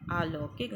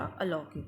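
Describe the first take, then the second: First: "अलौकिक" as aa-laukik; wrong-form demo, long aa opening "अलौकिक"; mispronounced long vowel. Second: Said in the usual way. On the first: Shown as a demonstration. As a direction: stretch the first vowel of "अलौकिक" to aa. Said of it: "नहीं होता". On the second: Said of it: "होता है".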